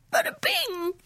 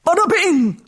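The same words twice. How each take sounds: First: Very high, softer frightened wail; wailing kitten. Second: Loud, raised outburst from a mummy; moaning mummy king. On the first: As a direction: wail it thinly, like a scared kitten. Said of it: "he wailed". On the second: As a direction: moan it out loudly like a disturbed mummy. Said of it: "moaned the king". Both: A narrator's reading.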